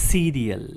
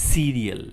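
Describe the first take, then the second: No difference in how they are said.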